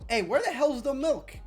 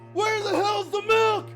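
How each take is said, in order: First: It is said at normal volume. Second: It is screamed very loudly.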